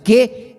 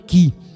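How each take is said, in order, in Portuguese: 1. A palavra termina com a vogal 'e'. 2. A palavra termina com a vogal 'i'. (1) "pronunciado que" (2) "e não que"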